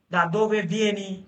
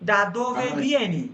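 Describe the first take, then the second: First: Slow, careful Italian Da dove vieni; teacher modelling the question slowly; slow model phrase. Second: Slow, careful Italian Da dove vieni, falling at the end; Da dove vieni drawn out, dropping on vieni; teacher asking class the question slowly; slow model phrase. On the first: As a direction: spell out Da dove vieni clearly. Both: Shown as a demonstration. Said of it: "আমি যদি বলি".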